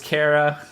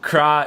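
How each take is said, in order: First: The name is said as two syllables. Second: The name is said as one syllable. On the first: The speaker calls it right. "is pronounced Kara" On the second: The speaker calls it wrong. "looks or reads like Kra"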